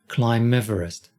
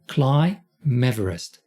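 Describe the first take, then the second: First: The phrase is spoken more quickly. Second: The phrase is spoken very slowly. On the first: "Let's try it a little quicker" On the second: "let me do this very slowly"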